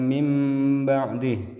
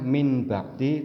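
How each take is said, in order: First: The nasal before b sounds like m. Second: The nasal before b sounds like n. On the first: The speaker calls it right. "tapi dibaca" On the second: The speaker calls it wrong.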